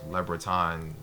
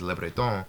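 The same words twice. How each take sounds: First: The name is said with non-French pronunciation. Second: The name is said with French pronunciation. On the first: The speaker calls it wrong. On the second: The speaker calls it right.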